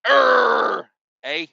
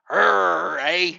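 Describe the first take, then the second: First: Mad Canadian. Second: Lightly voiced, mock-grumpy Canadian growl; a hint of an angry Canadian, played for laughs; mad Canadian. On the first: Retold or imitated. Trucker mocking Canadians over tolls, a louder hammed-up growl. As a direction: bark it out like a furious Canadian. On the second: Trucker mocking Canadians for his viewers, a mild mock-grumpy growl. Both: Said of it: "that's what a mad Canadian sounds like".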